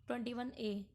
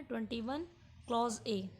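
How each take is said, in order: First: Said in the usual way. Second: "twenty one", short pause, then "clause A"; corrected article reading. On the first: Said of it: "ये नहीं बोलना है हमको". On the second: Shown as a demonstration. Teacher preparing students for interview questions, "twenty one clause A" said in full. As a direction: put the word "clause" between "twenty one" and "A". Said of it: "हमको बोलना है".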